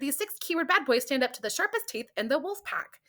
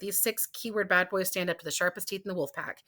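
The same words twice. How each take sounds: First: It is read in a cute, trendy voice. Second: It is read in a tough, gung-ho voice. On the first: The speaker is a cute, trendy type. "if your voice was cute and trendy, you wouldn't say" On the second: The speaker is a bold, leather-jacket type. "see how I read all of those in a different voice?"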